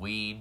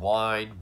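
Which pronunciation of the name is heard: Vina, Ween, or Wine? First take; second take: Ween; Wine. First: The name sounds like "ween" with a W. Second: The name sounds like English "wine". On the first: "I've heard" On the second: "I've heard Wine"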